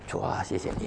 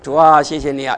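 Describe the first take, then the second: First: The prayer is said in a quiet voice. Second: The prayer is said in a loud voice. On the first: Someone else has come near. "来了个人" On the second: Nobody else is around to hear. "声音可以大一点"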